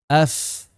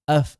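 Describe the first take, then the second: First: The final sound is a light, clean f. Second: The final sound is heavy, almost like p. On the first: The speaker calls it right. "Seperti itu" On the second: The speaker calls it wrong. "af itu keliru"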